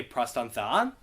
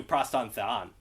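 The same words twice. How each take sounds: First: "pros ton theon" lifting up at the end; pitch rise on theon. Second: "pros ton theon" dropping down at the end; falling pitch. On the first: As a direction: let the pitch climb on "theon". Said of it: "grave means it goes down". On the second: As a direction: let the pitch fall on "theon". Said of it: "as opposed to". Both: Shown as a demonstration.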